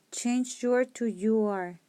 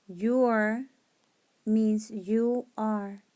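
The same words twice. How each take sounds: First: Said in the usual way. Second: "Your" lifted and held, then "means you are" slow; stress on your. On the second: Shown as a demonstration.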